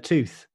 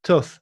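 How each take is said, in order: First: "tooth" with a long oo; long-oo pronunciation. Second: "Tooth" with a short oo; Redditch short vowel. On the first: Contrasting with Redditch way, tooth with long oo. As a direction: say "tooth" with the oo of boot. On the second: Showing co-host the Redditch way, Tooth with short oo. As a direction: say "Tooth" to rhyme with put's vowel. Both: Shown as a demonstration. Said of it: "instead of tooth".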